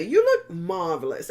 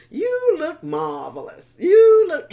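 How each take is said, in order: First: Said in the usual way. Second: High, loud hammed-up rehearsal of You look marvelous; high, loud, showy practice take of You look marvelous; rehearsed compliment. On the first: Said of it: "practicing how to say". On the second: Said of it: "he kept practicing how to say".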